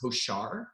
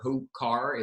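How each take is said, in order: First: The middle consonant is a soft SH sound. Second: The middle consonant is a hard K sound. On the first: The speaker calls it right. "The C H makes a softer S H sound" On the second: The speaker calls it wrong. "It's not Hochar or Hokar"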